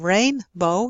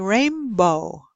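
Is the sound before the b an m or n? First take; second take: n; m. First: An n sound comes before the b. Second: An m sound comes before the b. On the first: "instead of rainbow" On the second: "you say rainbow"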